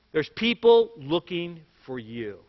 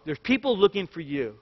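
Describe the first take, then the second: First: Put-on slow, grave warning to the kids; dead serious. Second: Said in the usual way. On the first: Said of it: "And he said, dead seriously".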